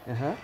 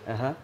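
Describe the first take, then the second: The two takes are said the same way.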